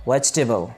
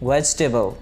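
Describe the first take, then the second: No difference in how they are said.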